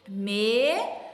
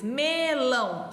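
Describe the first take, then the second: First: Slow, split Melão into me-lão; syllable by syllable. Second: Melão said slowly, me-lão; Melão drawn out for counting; counting syllables aloud. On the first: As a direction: stretch out Melão, one beat per syllable. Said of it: "Falar devagarzinho e ir contando". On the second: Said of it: "Eu abri minha boca duas vezes". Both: Shown as a demonstration.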